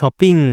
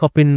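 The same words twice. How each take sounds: First: The final g sound is clearly pronounced. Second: The final g sound is dropped or unclear. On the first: The speaker calls it right. "জি, আপনার কনসোনেন্টটা খুব সুন্দরভাবে pronounce করতে হবে" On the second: The speaker calls it wrong. "অনেকে শপিং বলে"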